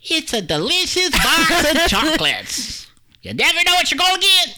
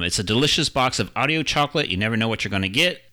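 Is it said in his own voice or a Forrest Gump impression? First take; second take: Forrest Gump; own voice. First: It is said as a Forrest Gump impression. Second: It is said in his own normal voice.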